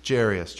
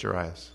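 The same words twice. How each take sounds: First: "Jairus" as JAIR-ee-us, stressed first syllable; pronunciation attempt. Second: "Jairus" as juh-RYE-us, stressed middle syllable; pronunciation attempt. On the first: Preacher trying out the name aloud, "Jairus" said JAIR-ee-us. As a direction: say "Jairus" with AIR up front, three syllables. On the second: Preacher trying out the name aloud, "Jairus" said juh-RYE-us. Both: Shown as a demonstration.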